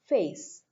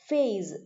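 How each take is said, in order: First: The word ends with a hissing s sound. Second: The word ends with a buzzing z sound.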